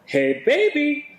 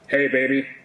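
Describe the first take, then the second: First: It is said in a shrill voice. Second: It is said in a tough voice.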